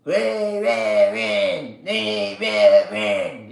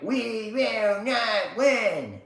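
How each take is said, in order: First: Slow drawn-out mock of a politician; mocking quote. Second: Slow, higher, drawn-out chant; his own version. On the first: Mocking a politician's rally line, slow and sneering. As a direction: drag it out to mock him. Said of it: "Held his little hand and said". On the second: Retold or imitated. Streamer answering the politician with his chant, slow and defiant. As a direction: stretch each word like a defiant chant. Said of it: "That's my version".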